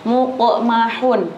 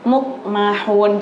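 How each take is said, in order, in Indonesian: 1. Qaf dilepas dengan pantulan yang jelas. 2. Qaf diucapkan datar tanpa pantulan sama sekali. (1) "Ada qafnya, ada apa? Qalqalahnya" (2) "Jadi jangan"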